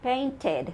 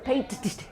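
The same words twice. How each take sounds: First: The ending is said as an extra syllable. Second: The ending is a bare sound with no syllable. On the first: The speaker calls it right. "it's okay to say the extra syllable" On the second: The speaker calls it wrong. "Because it sounds silly"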